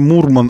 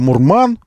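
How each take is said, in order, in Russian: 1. Ударение на первом слоге. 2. Ударение на втором слоге. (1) "чтобы он был не «Мурман»" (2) "но исковеркать его ударение"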